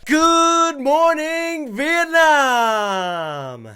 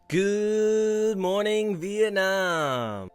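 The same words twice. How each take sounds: First: It is said with higher energy. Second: It is said with lower energy.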